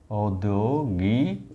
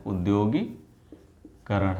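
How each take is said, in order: First: औद्योगिकरण said slowly starting with au; wrong form, slow. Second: उद्योगीकरण said slowly starting with a short u; correct form, slow. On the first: Teacher shows students the wrong word au-dyo-gik-ran, slowly. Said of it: "इसका क्या होगा?". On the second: Teacher gives students the correct word u-dyo-gee-karan, slowly. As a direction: spell out उद्योगीकरण slowly, u not au. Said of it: "उद्योगीकरण होता है।". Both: Shown as a demonstration.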